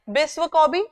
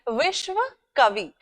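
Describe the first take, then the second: First: It is said with a Bengali pronunciation. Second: It is said with a non-Bengali pronunciation.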